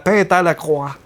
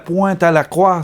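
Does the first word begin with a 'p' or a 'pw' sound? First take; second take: p; pw. First: The first word begins with a plain 'p' sound. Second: The first word begins with a 'pw' sound. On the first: The speaker calls it wrong. "c'était la pinte à la croix" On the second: The speaker calls it right. "c'était pas la pointe à la croix"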